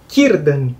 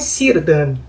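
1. O nome começa com um som de K forte. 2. O nome começa com um som de S suave. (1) "essa letra C tem que ser falada como a letra K" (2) "não é Círdan"

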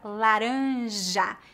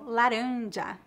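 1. O j é um som zh suave. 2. O j é um som dj duro.

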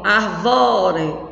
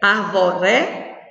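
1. A tônica está na segunda sílaba. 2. A tônica está na terceira sílaba. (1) "Se fosse o vó, eu ia dizer como?" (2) "Se fosse o ré"

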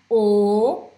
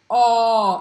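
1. A vogal é dita com a boca fechada. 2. A vogal é dita com a boca mais aberta. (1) "não é O" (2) "é O, é mais aberta"

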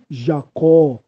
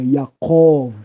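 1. O nome começa com som de J. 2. O nome começa com som de Y. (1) "não existe Jacó" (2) "é Jacó"

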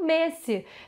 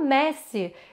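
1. A primeira vogal é um e fechado. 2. A primeira vogal é um e aberto. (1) "eles não têm esse E aberto" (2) "A gente aqui fala Messi"

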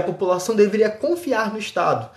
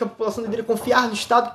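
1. A frase é dita devagar. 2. A frase é dita muito rápido. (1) "fala mais devagar pra você entender melhor" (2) "Tô falando muito rápido"

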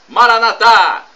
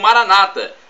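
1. A tônica está na última sílaba. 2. A tônica está na penúltima sílaba. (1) "como dizemos nós católicos" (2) "com a tônica na penúltima sílaba"

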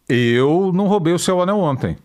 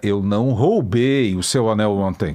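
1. A ênfase recai sobre a palavra eu. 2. A ênfase recai sobre a palavra roubei. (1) "O Anselmo, eu não sei" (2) "Você me emprestou"

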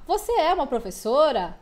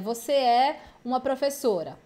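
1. Tem entonação de pergunta. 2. Tem entonação de afirmação. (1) "eu estou mudando a entonação e colocando ali meu ponto de interrogação no final" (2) "uma frase afirmativa"

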